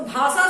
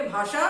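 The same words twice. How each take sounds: First: भाषा as bhaasaa with a plain 's'; mispronounced s for sh. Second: भाषा with a clear 'sh', bhaashaa; correct sh sound. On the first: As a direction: say भाषा wrongly as bhaa-saa. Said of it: "सुनने में अच्छा नहीं लग रहा है". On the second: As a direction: say भाषा properly as bhaa-shaa. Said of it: "सही है और सुनने में". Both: Shown as a demonstration.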